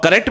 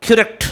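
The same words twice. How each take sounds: First: करेक्ट with a full "ka-rekt"; wrong pronunciation. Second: Higher करेक्ट with reduced first vowel, "kurekt"; right pronunciation. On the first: Teacher correcting a common slip, mispronounced. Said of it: "भी नहीं बोलते हैं". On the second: Teacher modelling the right form, correctly pronounced. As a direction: squeeze करेक्ट into "k'rekt". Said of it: "इसका right pronunciation है करेक्ट". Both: Shown as a demonstration.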